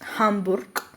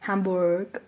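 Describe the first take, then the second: First: It is said with a strong German pronunciation. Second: It is said with an English-like accent. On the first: The speaker calls it right. "അങ്ങനെ തന്നെ പ്രൊണൗൺസ് ചെയ്യുന്നത്" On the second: The speaker calls it wrong. "നമ്മൾ ഇംഗ്ലീഷിലെ പോലെ ഒരു ആക്സെൻ്റ് കൊടുത്തിട്ട് ... അങ്ങനെ ഒരിക്കലും പറയില്ല"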